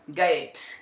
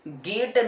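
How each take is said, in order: First: The word is said in an American style. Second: The word is said the way it is spelled. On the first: The speaker calls it right. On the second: The speaker calls it wrong.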